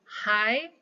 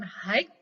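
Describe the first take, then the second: First: The word ends with no consonant sound. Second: The word ends with a k sound. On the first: The speaker calls it right. "hi silent letter g" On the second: The speaker calls it wrong. "bukan hike"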